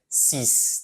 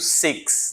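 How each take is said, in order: First: It is said with French pronunciation. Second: It is said with English pronunciation. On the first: "Mas em francês é six" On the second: "Em inglês eu pronuncio six"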